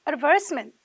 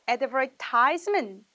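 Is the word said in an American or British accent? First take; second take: British; American. First: The word is said in a British accent. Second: The word is said in an American accent. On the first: "광고의 영국 발음은 어떻게 들리는지" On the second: "미국 발음에서는 advertisement 이렇게 들린다"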